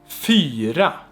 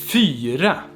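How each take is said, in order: Both takes have the same delivery.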